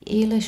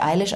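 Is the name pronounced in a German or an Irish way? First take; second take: Irish; German. First: The name is said in an Irish way. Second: The name is said in a plain German way. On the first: The speaker calls it right. "Der sagt [name], weiß ich nicht. Der spricht die anders aus" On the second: The speaker calls it wrong. "der spricht die natürlich nicht Eilish aus"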